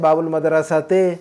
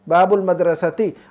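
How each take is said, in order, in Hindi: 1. आखिरी शब्द 'te' की आवाज़ से खत्म होता है। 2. आखिरी शब्द 'ti' की आवाज़ से खत्म होता है। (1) "वो कहते हैं बाबुल मदरसते, ऐसा कहते ते नहीं" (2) "ती, बाबुल मदरसती"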